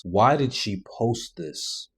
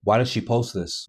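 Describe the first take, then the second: First: Each word slowed, stress on why; slow disbelief. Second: Said in the usual way. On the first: Real, not acted. Host baffled by the posted video, slowed repeat. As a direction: drag it out in disbelief.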